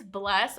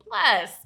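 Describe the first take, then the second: First: Said in the usual way. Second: "Bless" louder, with a long falling tune; emphatic BLESS. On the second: Acted. Blessing the not so good things, emphatic falling "Bless". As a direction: land hard on "Bless" and let it slide down.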